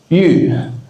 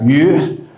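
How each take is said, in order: First: It is said with the tone meaning jade. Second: It is said with the tone meaning fish. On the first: The word means jade. "yu is the Chinese word for jade" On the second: The word means fish. "yu is the Chinese word for fish"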